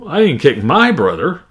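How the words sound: The stress falls on the word my. A friend's brother was kicked instead. "Another way, uh, my"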